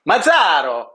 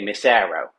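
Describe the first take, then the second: First: The name is said in an Italian style. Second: The name is said in a Philadelphia style. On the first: This is how someone in Italy would say it. "you're more of like the guy in Italy who would pronounce it" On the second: This is how people in Philly say it. "and in Philly, we really say Massaro. We say it like that"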